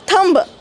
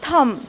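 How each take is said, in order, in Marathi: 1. शब्दाचा शेवट स्पष्ट b आवाजाने होतो. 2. शब्दाचा शेवट m आवाजावर होतो. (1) "थंब आपण म्हणतो" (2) "पण उच्चार आहे थंब"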